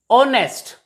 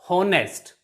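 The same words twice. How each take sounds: First: The word starts with a vowel, no h sound. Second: The word starts with an audible h sound. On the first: The speaker calls it right. "H is also silent here" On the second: The speaker calls it wrong. "not honest"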